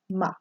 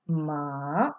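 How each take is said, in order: First: The syllable is short and light. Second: The pitch dips down and then rises. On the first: "the light sound" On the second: "The voice dips and rises"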